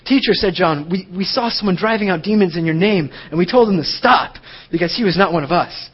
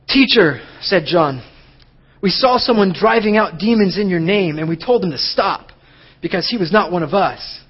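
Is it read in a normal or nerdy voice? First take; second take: nerdy; normal. First: It is read in a put-on nerdy voice. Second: It is read in his normal voice.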